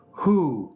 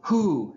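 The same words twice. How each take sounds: First: Loud, raised commanding hoot. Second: High theatrical hoot; dramatic flair. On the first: Owl lecturer opening to his audience, commanding. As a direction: call it out with authority. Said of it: "he said commandingly". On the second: Owl lecturer repeating his question to the crowd, theatrical. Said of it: "he repeated with dramatic flair". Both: A narrator's reading.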